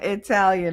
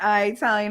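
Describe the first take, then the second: First: The word begins with an 'ih' sound. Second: The word begins with an 'eye' sound. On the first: The speaker calls it right. "I'm Italian" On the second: The speaker calls it wrong. "I'm not I Italian"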